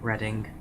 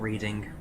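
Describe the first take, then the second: First: The first vowel sounds like in 'red'. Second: The first vowel sounds like in 'reed'. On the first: The speaker calls it right. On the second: The speaker calls it wrong.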